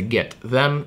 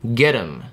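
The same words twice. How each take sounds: First: The first sound of them is pronounced. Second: The first sound of them is dropped. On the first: "вместо get them" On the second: "мы убираем первый согласный звук полностью"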